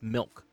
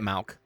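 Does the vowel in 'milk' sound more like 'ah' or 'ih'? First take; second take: ih; ah. First: The vowel is a short 'ih' sound. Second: The vowel is an open 'ah'-like sound. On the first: The speaker calls it right. "That's how you say it. It's milk" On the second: The speaker calls it wrong. "You don't say it, Malk"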